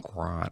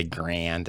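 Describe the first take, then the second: First: "Grand" said grahn, nasal, no d; "Grand" the French way, soft n, d dropped; French-style Grand. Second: "Grand" with a flat Chicago a and hard d; "Grand" rhymes with hand, Chicago style; Chicago accent. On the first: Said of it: "I used to say Grand". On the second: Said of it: "my Chicago accent". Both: Shown as a demonstration.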